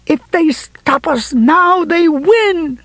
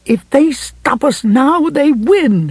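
First: Slow, high-pitched furious scream at moderate volume. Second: Slow, high-pitched ferocity; ferocious. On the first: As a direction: scream it out, stretching the words high. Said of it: "she screamed". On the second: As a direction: drive it home fiercely, pitched high and drawn out. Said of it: "Ferocity was the last thing". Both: A narrator's reading.

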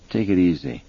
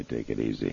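First: Said in the usual way. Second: Much lower and softer, easygoing; quiet. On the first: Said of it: "Roger said". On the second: A narrator's reading. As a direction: say it calmly under the breath. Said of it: "Roger could afford to say".

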